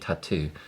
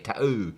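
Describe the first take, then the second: First: The word is said with a standard accent. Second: The word is said with a Cockney accent. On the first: This is the form the speaker suggests instead. "do you mean tattoo?" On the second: Someone else said it this way. "got a Cockney accent"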